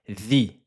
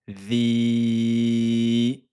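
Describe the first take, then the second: First: The vowel is held for one count. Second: The vowel is held for four counts. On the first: "un temps on a dit" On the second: "quatre temps"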